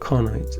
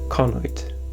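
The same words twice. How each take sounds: First: The stress is on the first syllable. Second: The stress is on the second syllable. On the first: The speaker calls it right. "The accent is in the first syllable" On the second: The speaker calls it wrong. "Sorry, not pronounce it correctly"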